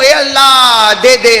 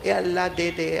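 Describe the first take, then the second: First: It is said loudly and forcefully. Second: It is said quietly and softly.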